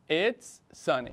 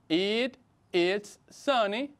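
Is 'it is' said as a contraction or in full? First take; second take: contraction; full. First: The words 'it is' are contracted. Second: The words 'it is' are said in full. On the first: "utilizamos la versión contraída" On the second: "también se puede decir de forma larga"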